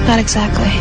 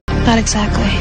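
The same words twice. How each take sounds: The two takes are said the same way.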